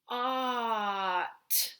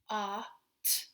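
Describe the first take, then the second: First: The sounds are dragged out and joined. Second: The sounds are short and separate.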